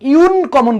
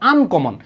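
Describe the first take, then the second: First: The word begins with a 'yoo' sound. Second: The word begins with an 'uh' sound. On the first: The speaker calls it wrong. "আমরা এখানে ইউ ইউন কমন বলি না" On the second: The speaker calls it right. "আমরা কি বলি? আনকমন"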